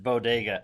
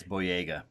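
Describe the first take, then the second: First: "Bodega" with a d in the middle; mimicked mispronunciation. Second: Put-on "Boyega" with a y sound in the middle; correct name pronunciation. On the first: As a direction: say "Bodega" like the corner shop, bo-DAY-ga. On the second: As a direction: say "Boyega" as boy-AY-ga. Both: Shown as a demonstration. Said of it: "you have pronounced it Bodega".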